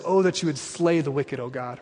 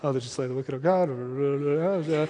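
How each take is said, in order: First: It is said clearly at normal volume. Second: It is mumbled quickly and quietly.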